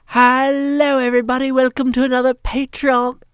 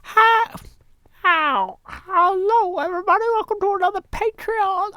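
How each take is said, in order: First: A higher, louder try at Cleo's greeting; first rough attempt at a woman's voice; half-hearted Cleo impression; imitating Cleo. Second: Much higher falsetto greeting; strained high Cleo impression; straining for Cleo. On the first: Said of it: "trying to do Cleo's voice". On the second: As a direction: push the voice way up to reach Cleo. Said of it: "can't get my voice quite pitched high enough".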